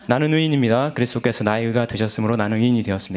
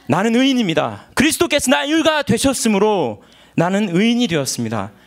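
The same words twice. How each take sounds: First: It is said flatly, without feeling. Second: It is said with strong, heartfelt feeling.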